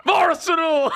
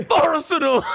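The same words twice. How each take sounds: First: Imitating a loony Arsenal shout; mock fan yell. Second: Arsenal shouted high and loud like a crazed fan; mimicking his mate's mad Arsenal shout; mock fan yell. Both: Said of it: "sitting there like a complete lunatic".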